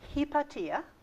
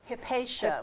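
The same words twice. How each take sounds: First: The name is said the Greek way. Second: The name is said the American way. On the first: The speaker calls it right. "in Greek, it's pronounced Hypatia" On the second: The speaker calls it wrong. "not Hypatia"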